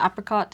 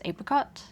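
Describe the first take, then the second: First: It is said the American English way. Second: It is said the non-American way.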